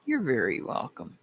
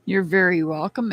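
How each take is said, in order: First: Softer repeat. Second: Said in the usual way. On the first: Real, not acted. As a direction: repeat "You're very welcome" softer, trailing down.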